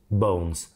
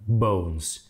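First: The vowel glides as a double sound. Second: The vowel glides as a double sound.

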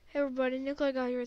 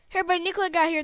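First: It is said at a slower pace. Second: It is said at a faster pace.

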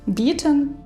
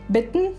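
First: The final syllable's vowel is clearly pronounced. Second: The final syllable's vowel is dropped. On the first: A reader unfamiliar with the pronunciation says it this way. The speaker calls it wrong. "українець або українка ... швидше за все прочитає так" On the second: Native speakers usually say it this way. The speaker calls it right. "В першому слові була коротка «и» ... пропускається звук «е»"

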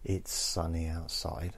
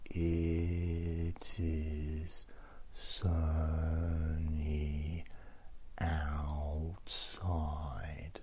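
First: It is spoken at a normal speed. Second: It is spoken very slowly and drawn out. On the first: "if they're saying" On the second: "slow it down"

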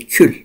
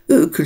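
First: The word starts with a consonant sound. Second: The word starts with a vowel sound. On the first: The speaker calls it right. "Ne kalıyor geride? Kül" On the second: The speaker calls it wrong. "ükül şeklinde söylenmiyor emir fiili"

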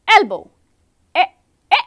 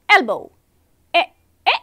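The two takes are said the same way.

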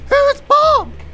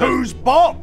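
First: It is said in a put-on character voice. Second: It is said in the speaker's normal voice.

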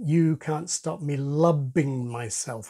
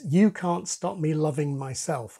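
First: Loving is said with a b sound. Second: Loving is said with a v sound.

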